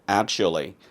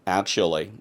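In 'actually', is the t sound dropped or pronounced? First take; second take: dropped; dropped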